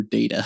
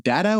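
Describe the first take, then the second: First: "Data" said DAY-tuh; long-a pronunciation. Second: "Data" said DAT-uh; short-a pronunciation. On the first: Host offering the other option, "Data" as DAY-tuh. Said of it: "I spell it like Data". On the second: Host asking guest which way, "Data" as DAT-uh. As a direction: say "Data" with the a of "cat". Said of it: "I say Don Data". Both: Shown as a demonstration.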